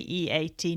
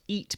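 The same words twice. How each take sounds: First: It is spelled out letter by letter. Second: It is said as one ordinary word. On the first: It names equine-assisted therapy. The speaker calls it right. "I assume we have to say EAT" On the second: It means consuming food. The speaker calls it wrong. "not EAT, because that's something different. It's what I like to do most of the time"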